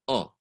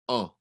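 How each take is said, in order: The two takes are said the same way.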